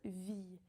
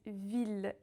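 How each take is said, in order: First: It ends on the vowel with no L sound. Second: It ends with a clear L sound. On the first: The speaker calls it wrong. "and not vie" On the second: The speaker calls it right. "We pronounce the L in it"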